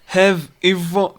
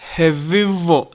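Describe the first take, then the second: First: The two words are said separately. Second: The v links smoothly into the next word.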